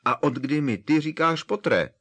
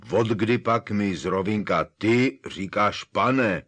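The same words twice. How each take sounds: First: Higher, louder outraged giant; indignant Hagrid, peaking. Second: Louder, slow astonished giant; indignant Hagrid. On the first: Hagrid demands why he calls Harry Potter, higher. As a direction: push the outrage to the top. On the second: Hagrid demands why Harry calls him sir, loud. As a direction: Hagrid outraged at being called sir. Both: A narrator's reading.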